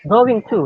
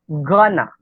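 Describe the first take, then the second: First: Both words are said fully and separately. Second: The words are blended into one short word. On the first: "it is clear that it is going to" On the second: "Some native speakers use gonna"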